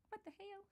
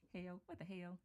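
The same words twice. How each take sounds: First: Put-on US Southern accent. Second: Said in the usual way. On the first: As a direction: imitate Hale's US Southern twang on "what the hell?". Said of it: "I love it with her U S Southern accent". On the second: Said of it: "have you got to hear Hale say that".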